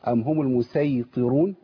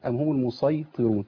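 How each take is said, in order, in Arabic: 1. صوت السين مفخم وثقيل، زي sad. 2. صوت السين مرقق وخفيف، زي sin. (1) "بالصاد" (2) "وبالسين"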